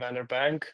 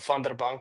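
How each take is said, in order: First: The surname has an English-style pronunciation. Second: The surname has an Afrikaans pronunciation.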